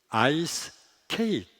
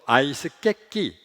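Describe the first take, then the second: First: It is pronounced with the sounds 'ice cake'. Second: It is pronounced with the sounds 'aisu kekki'.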